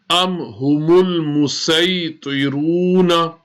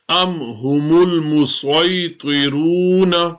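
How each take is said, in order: First: The s sound is light and plain. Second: The s sound is heavy and emphatic. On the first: "as a seen" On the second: "musway as a sword"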